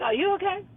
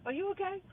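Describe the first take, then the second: First: Higher, incredulous "Are you okay?". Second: Higher and softer "Are you okay?"; soft incredulous ask. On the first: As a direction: ask it in disbelief. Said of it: "I'm like". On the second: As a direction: murmur it in disbelief. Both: Retold or imitated.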